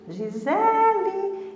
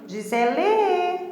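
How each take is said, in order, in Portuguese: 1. A sílaba tônica é a segunda. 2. A sílaba tônica não é a segunda. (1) "é o Z, né, que é a mais forte" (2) "Eu não vou falar assim"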